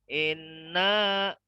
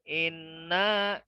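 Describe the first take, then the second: No difference in how they are said.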